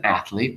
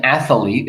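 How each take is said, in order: First: Athlete as ath-lete, no middle vowel; two-syllable athlete. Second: Athlete with an extra vowel, ath-uh-lete; mispronounced athlete. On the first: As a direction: run th straight into l in athlete. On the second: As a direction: put three syllables into athlete. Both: Shown as a demonstration. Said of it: "we got rid of the E".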